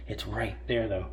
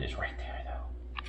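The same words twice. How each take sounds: First: Said in the usual way. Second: A hushed teasing aside; whispered tease. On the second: Real, not acted. Owner whispering to the dog about the chicken, hushed tease.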